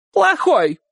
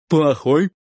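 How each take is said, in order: First: High, emphatic falling cry; shouted confirmation. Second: "Плохой" asked with rising tune; questioning echo. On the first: Aunt confirming to Uncle Kolya, shouting. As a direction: shout it back high, as final. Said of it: "крикнула тётушка". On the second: Uncle Kolya checking aunt's word, asking "Плохой" back. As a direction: ask "Плохой" back at an ordinary pitch. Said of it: "переспросил дядя Коля". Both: A narrator's reading.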